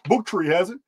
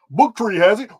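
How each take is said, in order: First: It is said in his normal voice. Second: It is said like a car salesman.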